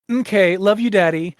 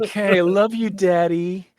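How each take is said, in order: First: It is said at normal speed. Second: It is said slowly and drawn out.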